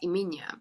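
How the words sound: The name is pronounced the Afrikaans way. The speaker calls it right. "that's the way that we pronounce it"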